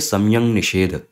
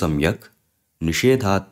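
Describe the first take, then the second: First: No pause, and the word ends in a nasal ng. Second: A pause follows, and the word ends in k. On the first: The words are joined by sandhi. "जब ये साथ में जुड़ रहा है संधि से तो ये सम्यंग निषेध ऐसे हो जा रहा है" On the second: The compound is split into its separate words. "मैंने यहाँ पे एक विराम लिया था"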